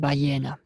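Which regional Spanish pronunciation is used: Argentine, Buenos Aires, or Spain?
Spain. It is said the way Spaniards say it. "если спрашиваешь испанцем, то тебе говорит «баена»"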